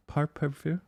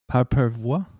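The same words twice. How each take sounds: First: Mock French accent, higher and hushed. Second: Mock French accent. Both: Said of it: "I can't do it".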